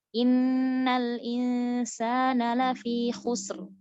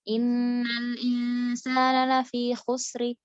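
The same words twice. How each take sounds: First: "khusr" closed on a silent r, slow; correct stop. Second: "khusri" read with a final i instead of a stop; vowelled pause ending. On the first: Teacher showing the right stop on "khusr". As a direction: stops cleanly on "khusr" with sukun. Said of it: "Harusnya diberhentikan kan". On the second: Teacher showing the wrong stop on "khusri". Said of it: "Harusnya kan disukunkan". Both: Shown as a demonstration.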